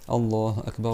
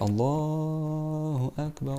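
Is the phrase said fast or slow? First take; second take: fast; slow. First: It is said quickly and fairly softly. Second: It is said slowly and drawn out. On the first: The prayer is about to begin. "L'iqama il est plus vite" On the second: It is the general call to prayer. "Ça c'est le adhan"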